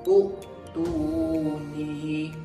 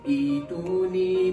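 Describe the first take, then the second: First: It opens with a short u vowel. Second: It opens with a long i vowel. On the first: The speaker calls it wrong. "terus membariskan hamzah wasal itu dengan kaedah melihat huruf yang ketiga" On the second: The speaker calls it right. "cara bacaan yang sebenar ialah kita tukarkan huruf hamzah itu kepada huruf ya mad"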